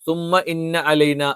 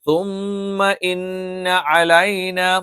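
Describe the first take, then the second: First: The doubled m and n are said plainly. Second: The doubled m and n are held nasally. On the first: The speaker calls it wrong. "അല്ലാതെ തുമ്മ ഇന്ന അലൈന എന്ന് പറയാൻ പറ്റില്ല" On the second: The speaker calls it right. "രണ്ടും നമ്മൾ മണിച്ചുച്ചരിക്കണം"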